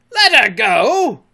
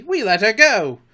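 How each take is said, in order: First: Slow, high, loud disbelief; drawn-out outraged shout; outraged cry. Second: High, loud, self-satisfied report; complacent. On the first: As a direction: echo it as an incredulous bellow. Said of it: "cried Hook". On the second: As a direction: announce it proudly. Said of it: "Smee answered complacently". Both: A narrator's reading.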